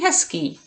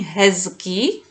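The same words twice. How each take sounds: First: The middle consonant is a voiceless S sound. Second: The middle consonant is a voiced Z sound. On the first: "I'm saying hezký, S instead of Z" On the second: "I am not saying hezký"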